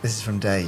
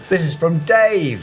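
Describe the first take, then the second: First: It is said at a normal, quieter volume. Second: It is said loudly, almost shouted. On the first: The speaker calls it right. "That's better" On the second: The speaker calls it wrong. "you don't have to shout it just because it's emboldened"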